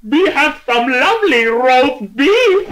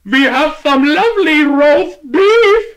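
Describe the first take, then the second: First: Much higher, slow, louder bellow; huge shout. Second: Much higher, slow, louder clerk voice; deli man offering. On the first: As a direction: fill up with air and blast it. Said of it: "he shouted in a voice so loud". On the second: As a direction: drag it out for a deaf customer. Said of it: "said the delicatessen man". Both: Acted.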